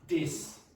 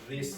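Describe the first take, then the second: First: It begins with a 'd' sound. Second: It begins with a voiced 'th' sound. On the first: "if you replace this one with d" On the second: "especially the one with the vibration"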